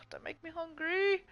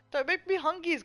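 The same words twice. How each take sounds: First: Put-on high whiny baby voice; whiny plea. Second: Put-on high babyish whine on hungies; baby talk. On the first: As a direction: whine it like a hungry child. Whiny plea about hunger. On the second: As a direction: say it like a toddler. Babytalk version of same line.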